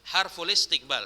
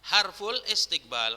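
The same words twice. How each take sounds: First: The phrase ends on the consonant l. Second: The phrase ends on the consonant l.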